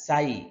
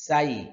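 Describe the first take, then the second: First: The s sound is light and thin. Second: The s sound is light and thin.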